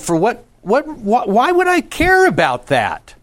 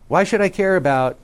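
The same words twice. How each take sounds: First: High, loud, swooping question; rising, emphatic rhetorical question; varied tone demo. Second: Said in the usual way. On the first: Shown as a demonstration. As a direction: lift the question high and vary the tone. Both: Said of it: "you notice I just did it".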